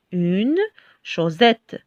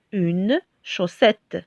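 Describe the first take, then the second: First: "chaussette" said "chau-zette", with a buzzing Z; misread with Z. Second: "chaussette" with a hissed S, "chau-ssette"; correct S sound. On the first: Teacher showing how one S would read, "chaussette" with a Z sound. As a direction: say "chaussette" with a voiced Z in place of the S. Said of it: "S'il y en a un seul S". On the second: Teacher reading the word with double S, "chaussette" with a clear S sound. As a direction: say "chaussette" slowly with a voiceless S. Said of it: "si on a deux S". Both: Shown as a demonstration.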